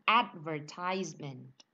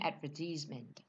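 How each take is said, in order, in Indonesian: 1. Ini diucapkan dengan pelafalan Amerika. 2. Ini diucapkan dengan pelafalan Inggris. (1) "Orang Amerika bilangnya" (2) "Orang British bilangnya"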